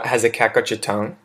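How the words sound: The voice falls at the end.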